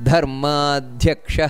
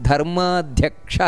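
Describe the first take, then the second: No difference in how they are said.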